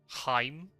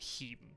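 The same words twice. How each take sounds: First: The vowel sounds like 'eye'. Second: The vowel sounds like 'ee'. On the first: The speaker calls it right. "you always pronounce the second one. So it'd be Heim" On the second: The speaker calls it wrong. "not Heim"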